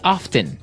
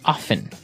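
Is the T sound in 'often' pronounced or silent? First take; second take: pronounced; silent. First: The word is said with a clear T sound. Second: The word is said without a T sound. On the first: "other people say often" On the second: "They kind of leave out the strong T sound"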